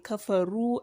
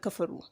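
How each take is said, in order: First: The vowel is held long. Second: The vowel is kept short. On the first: The speaker calls it right. "for the purpose of elongation, and that is why you say kafaru" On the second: The speaker calls it wrong. "and not kafaru"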